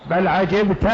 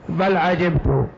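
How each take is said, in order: First: عجبت said 'ajibta, ending in -a; fatha on the ta. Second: عجبت said 'ajibtu, ending in -u; damma on the ta. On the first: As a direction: end عجبت on an open "ta". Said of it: "على قراءة فتح التاء". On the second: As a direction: end عجبت on a rounded "tu". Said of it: "على قراءة ضم التاء". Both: Shown as a demonstration.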